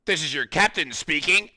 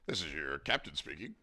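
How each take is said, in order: First: Loud, higher airline captain voice; pilot announcement. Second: Softer, lower captain line; pilot announcement. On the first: Streamer opening the stream as a captain, pilot voice. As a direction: announce like a pilot over the intercom. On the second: Streamer repeating the intercom line, softer. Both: Pretend.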